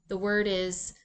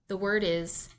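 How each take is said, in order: Both takes have the same delivery.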